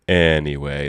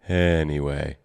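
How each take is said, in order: First: The word starts with a sharp glottal catch. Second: The word starts smoothly without a glottal catch. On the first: "glottal onsets when the vocal folds come together a bit more aggressively" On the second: "instead of"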